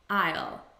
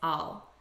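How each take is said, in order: First: The word is said fully and clearly. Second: The word is unstressed and reduced. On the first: "It's a contraction of I will" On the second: "in natural spoken English, the unstressed pronunciation is"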